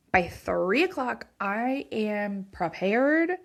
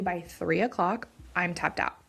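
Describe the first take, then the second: First: By three o'clock, slow and pressed hard; emphatic repeat. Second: Said in the usual way. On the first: Real, not acted. Tired mom insisting she needs her husband home by three o'clock, slow and emphatic. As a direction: lean on "o'clock" and stretch "I am prepared".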